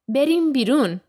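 It is said as a statement, falling.

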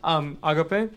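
The word is said with a Spanish pronunciation. "The way we say it here ... in Spanish"

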